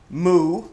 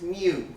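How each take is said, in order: First: It sounds like a cow's moo. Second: It does not sound like a cow's moo. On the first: The speaker calls it wrong. "not moo. it's not a cow" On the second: The speaker calls it right. "it's mu"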